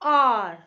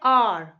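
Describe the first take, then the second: First: The word starts directly with a vowel sound. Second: The same.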